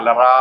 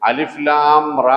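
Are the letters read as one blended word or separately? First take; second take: blended; separately. First: The letters are blended into one word. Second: Each letter name is said separately. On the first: The speaker calls it wrong. "അലറാ എന്ന് വായിക്കണ്ട" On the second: The speaker calls it right. "അലിഫ് ലാം റ എന്ന് വായിക്കണം"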